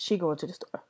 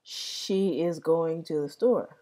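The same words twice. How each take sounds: First: "She going" run together, no "is"; African American English. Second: Said in the usual way. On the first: Shown as a demonstration. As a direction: say "She going" in easy vernacular flow.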